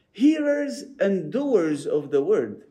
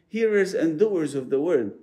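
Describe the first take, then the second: First: "Hearers and doers of the word" said slowly, each word weighed, "Hearers" stressed; slow emphatic phrase. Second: Said in the usual way. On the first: Shown as a demonstration. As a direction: lean slowly into "Hearers" and "doers" to drive the point home.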